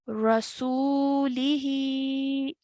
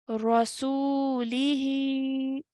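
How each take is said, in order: First: The word ends with a short i vowel. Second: The word ends with a short i vowel.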